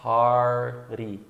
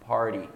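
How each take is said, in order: First: Party with a long American R, then a tap; slowed R plus flap. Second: Party said short, T tapped; quick R plus flap. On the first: Teacher breaks it down, party slow with R then tap. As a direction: hold the R of party before the tapped T. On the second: Teacher models natural speech, party brief with flapped T. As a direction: run the R of party straight into a tap. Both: Shown as a demonstration. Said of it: "agora tem o som do R antes".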